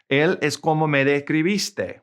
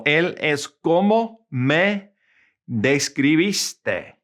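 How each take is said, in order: First: Said in the usual way. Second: Slow teaching demo with pauses between phrases; slow, word-by-word Spanish. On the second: Shown as a demonstration. Teacher giving students an example, slow and word by word. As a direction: say it slowly for learners, piece by piece.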